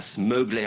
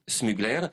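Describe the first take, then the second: First: The name is said with an American accent. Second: The name is said with a French accent. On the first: The speaker calls it wrong. "vous ne prononcez pas Smugler à l'américaine" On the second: The speaker calls it right. "C'est Smugler"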